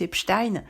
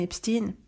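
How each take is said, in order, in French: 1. Le nom se prononce à l'allemande. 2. Le nom se prononce à l'américaine. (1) "Nous on dit tous Epstein. Parce qu'en français, on a tendance à prononcer euh, les noms euh, selon leur, leur origine, surtout quand c'est allemand" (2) "on va le prononcer à l'américaine"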